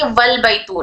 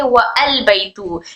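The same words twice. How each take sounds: First: वल बैतू with वाव glided straight onto लाम as one syllable, wal; correct joined reading. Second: वल बैतू split as wa then al, glottal stop kept before al; wrong separate reading. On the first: Teacher giving students the right way, slow and joined. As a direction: say वल बैतू smoothly as wal-baitu, no break. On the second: Teacher showing students the mistake to avoid, slow. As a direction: say वल बैतू as wa-al baitu, with a break. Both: Shown as a demonstration. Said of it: "ना कि".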